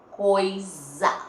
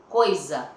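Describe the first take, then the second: First: "Coisa" drawn out with a long buzzing Z; louder, stretched "Coisa", rising at the end; Z sound shown. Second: Said in the usual way. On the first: Shown as a demonstration. Teacher showing pupils the letter Z sound, drawn out and emphatic. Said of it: "com o som da letra Z". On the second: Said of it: "Olha o S aí".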